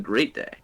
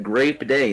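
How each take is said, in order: First: Said in the usual way. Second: "grape" punched higher with a closing p; stressed GRAPE. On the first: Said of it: "instead of". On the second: Shown as a demonstration. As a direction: hit "grape" hard, p at the end. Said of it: "He said".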